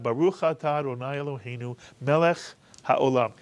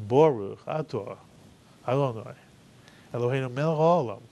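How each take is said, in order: First: It is said with a Sephardic Hebrew accent. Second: It is said with an Ashkenazic Hebrew accent. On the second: "that's how he heard it from his grandparents and his parents"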